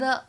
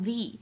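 First: The vowel is a short, weak 'uh' sound. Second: The vowel is a long 'ee' sound. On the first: The speaker calls it wrong. "这个定冠词不能读成the" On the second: The speaker calls it right. "而应该读成the，因为呢other 是一个元音因素开头的单词"

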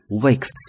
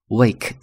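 First: The word ends in a voiceless s sound. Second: The word ends in a voiced z sound. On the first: The speaker calls it right. "可以发s" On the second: The speaker calls it wrong. "可以发z"

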